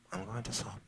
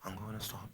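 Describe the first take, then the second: No difference in how they are said.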